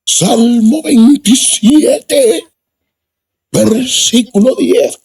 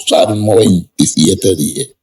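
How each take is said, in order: First: Much higher, very slow preacher voice, veintisiete rising; high drawn-out pulpit voice; imitating the preacher. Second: Said in the usual way. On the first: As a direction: announce the verse slowly like the village preacher. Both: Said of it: "así hablaba el hombre".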